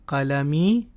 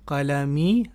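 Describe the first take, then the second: No difference in how they are said.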